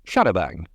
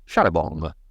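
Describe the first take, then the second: First: The last syllable has an anglicized vowel. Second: The last syllable has a French-style nasal vowel. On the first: "an English pronunciation was in order, thus Sharabang" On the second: "and not Sharabong"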